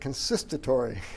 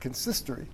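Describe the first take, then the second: First: An extra 'ta' syllable is inserted mid-word. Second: The word has no extra 'ta' syllable. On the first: The speaker calls it wrong. "I was pronouncing it consistatory" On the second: The speaker calls it right. "It's consistory"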